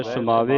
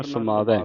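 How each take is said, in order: First: ਸਮਾਵੇ ending in a narrow "ay" sound; wrong pronunciation. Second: ਸਮਾਵੈ ending in an open "ai" sound; correct pronunciation. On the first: Teacher shows the misreading, ਸਮਾਵੇ with narrow e ending. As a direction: say ਸਮਾਵੇ with a single-stroke e ending. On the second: Teacher corrects the reading, ਸਮਾਵੈ with open ai ending. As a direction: open out the last vowel of ਸਮਾਵੈ, pitch dropping. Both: Shown as a demonstration. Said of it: "ਨਹੀਂ ਪੜ੍ਹਨਾ".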